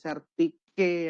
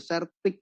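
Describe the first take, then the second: First: The name ends on an added vowel sound. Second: The name ends on a consonant sound. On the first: "boleh Sertike ya" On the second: "Bapak Ibu melafalkannya bebas, boleh Sertik"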